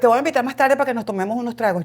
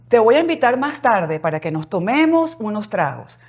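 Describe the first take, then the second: First: The s sounds are weakened or dropped. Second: Every s sound is pronounced fully. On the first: The speaker calls it wrong. "yo voy después a, tu, a, a comerme todas esas heces" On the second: The speaker calls it right. "tienes que tratar en tu casa de decir"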